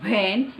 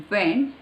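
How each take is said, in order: First: WHEN starting with a V; mispronounced WHEN. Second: WHEN with a rounded W; corrected WHEN. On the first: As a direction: say WHEN as "ven". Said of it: "it's not when". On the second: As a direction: round the lips to start WHEN. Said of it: "it's when". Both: Shown as a demonstration.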